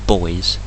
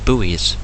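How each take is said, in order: First: The word is said the non-American way. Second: The word is said the American way. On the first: "I usually call them buoys" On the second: "Americans call them buoys"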